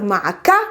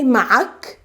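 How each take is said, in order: First: A vowel is pronounced after the final k. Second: The word ends on a bare k. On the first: "Instead of" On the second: "without moving the k"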